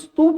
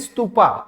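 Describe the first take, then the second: First: The word ends on the consonant 'p'. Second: The word ends with an added 'a' vowel. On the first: This is the native Hindi form. The speaker calls it right. "हमारी भाषा में तो उसको स्तूप बोला जाता है" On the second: This is the English-influenced form. The speaker calls it wrong. "अरे अंग्रेजों ने ए लगा दिया"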